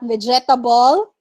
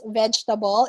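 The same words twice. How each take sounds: First: Vegetable in four syllables, ve-ge-ta-ble; wrong vegetable. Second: Vegetable as VEJ-tuh-bul, soft; correct vegetable. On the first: Teacher showing the four-syllable mistake. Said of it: "It's not vegetable". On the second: Teacher correcting the student's vegetable. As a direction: give vegetable in three syllables. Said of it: "it's vegetable". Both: Shown as a demonstration.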